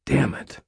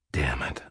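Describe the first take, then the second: First: Said in the usual way. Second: Lower, soft exhausted curse; tired. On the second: A narrator's reading. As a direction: sigh it out worn down. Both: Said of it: "I said tiredly".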